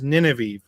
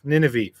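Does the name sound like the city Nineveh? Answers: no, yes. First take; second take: yes; yes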